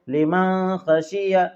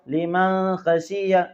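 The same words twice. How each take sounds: Both takes have the same delivery.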